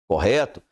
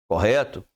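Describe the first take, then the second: No difference in how they are said.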